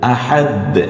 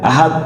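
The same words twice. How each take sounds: First: The final consonant is released with an echoing bounce. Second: The final consonant is held flat without a bounce. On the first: The speaker calls it right. "কলকলায় আকারে" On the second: The speaker calls it wrong. "দ যে আছে ওখানে বোঝা যায় না"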